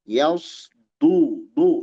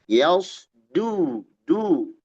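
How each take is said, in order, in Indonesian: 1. Huruf tengahnya berat dan tegas. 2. Huruf tengahnya ringan dan biasa. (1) "Kalau kita baca yaus du du itu dad" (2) "Yaus du du itu dal"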